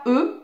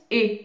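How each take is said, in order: First: E as a neutral, unrounded schwa-like "euh"; E sounds like "euh"; plain French e. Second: E as a closed, tense "é" like in "été"; E pronounced like "ay" without glide; é sound. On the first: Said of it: "il y a un accent aigu qui sert à dire que la lettre E ne se prononce pas". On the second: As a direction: say E as the é in Aurélie. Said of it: "mais se prononce E". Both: Shown as a demonstration.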